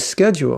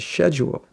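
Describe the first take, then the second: First: The word is given its American pronunciation. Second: The word is given its British pronunciation. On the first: "we say schedule" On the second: "you say schedule"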